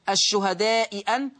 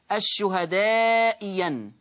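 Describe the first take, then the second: First: The second hamza is a full glottal stop. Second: The second hamza becomes a y sound. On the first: "المثال الأول الشهداء أن" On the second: "أبدلت الثانية ياء مفتوحة هكذا"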